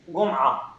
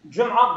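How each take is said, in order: First: The word begins with a hard g sound. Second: The word begins with a j sound.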